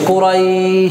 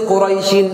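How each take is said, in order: First: The vowel glide is drawn out long. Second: The vowel glide is kept short. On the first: The reciter stops on this word. "এই টান দেই।" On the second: The word is joined to the next word. "মিলাই পড়লে কিন্তু টান নেই।"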